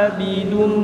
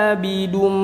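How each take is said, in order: No difference in how they are said.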